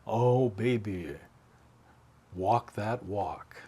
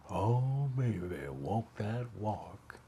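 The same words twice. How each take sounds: First: 1 requested line. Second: Slow, lightly voiced Memphis drawl; a hint of Charlie's deep Southern Memphis drawl, stretched out slowly; imitating Charlie's Southern drawl on the record. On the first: Retold or imitated. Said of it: "Just say". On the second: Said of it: "deep Southern Memphis drawl".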